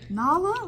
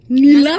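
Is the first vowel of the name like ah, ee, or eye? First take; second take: ah; ee. First: The first vowel sounds like ah. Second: The first vowel sounds like ee. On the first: "Like, no" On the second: "Mispronounce my name"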